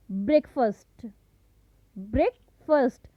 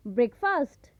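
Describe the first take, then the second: First: ब्रेकफास्ट said brek-fust, short unstressed second syllable; breakfast with a reduced fust ending; teacher models the right way; correct breakfast. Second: ब्रेकफास्ट said break-fast with a full fast; the common mistaken breakfast; wrong breakfast. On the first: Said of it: "सही उच्चारण होगा वो होगा". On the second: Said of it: "सुबह का नाश्ता को हम क्या बोलते हैं". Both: Shown as a demonstration.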